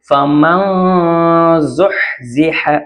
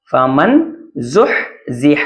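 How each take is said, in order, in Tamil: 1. n மூக்கொலியாக மறைந்து உச்சரிக்கப்படுகிறது. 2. n முழுமையாகவும் தெளிவாகவும் உச்சரிக்கப்படுகிறது. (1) "நம்ம மூக்கால மறைச்சு" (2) "மன் இங்க மண்ணு தான் இருக்கு"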